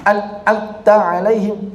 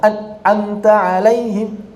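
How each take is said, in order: The two takes are said the same way.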